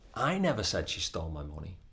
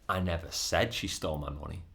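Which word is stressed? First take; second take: I; said. First: The stress falls on the word I. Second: The stress falls on the word said. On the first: Someone else said it, not the speaker. "as in somebody else might have said it, but it wasn't me" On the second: The speaker only thought or implied it. "but I might have thought it or implied it"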